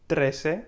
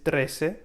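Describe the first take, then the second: Both takes have the same delivery.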